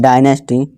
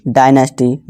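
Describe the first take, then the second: The two takes are said the same way.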